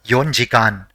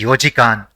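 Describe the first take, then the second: First: It starts with 'yon' and has an 'n'. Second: It starts with 'yo' and has no 'n'. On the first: The speaker calls it wrong. "and not yonjikan" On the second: The speaker calls it right. "it will be yojikan"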